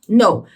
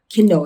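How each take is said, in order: First: The word starts with an N sound, no K. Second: The word starts with a pronounced K sound. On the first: The speaker calls it right. "a gente diz know" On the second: The speaker calls it wrong. "a gente não diz que know"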